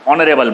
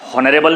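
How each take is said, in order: First: The word begins directly with the vowel sound. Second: The word begins with an audible h sound. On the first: The speaker calls it right. "ऑनरेबल बोलते हैं" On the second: The speaker calls it wrong. "हॉनरेबल नहीं बोलते आप"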